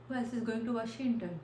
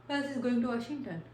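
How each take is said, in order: Both takes have the same delivery.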